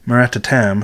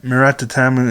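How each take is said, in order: First: The final u sound is almost silent. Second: The final u sound is clearly pronounced. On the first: The speaker calls it right. "it's more like Murata Tam" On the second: The speaker calls it wrong. "I've been saying it wrong"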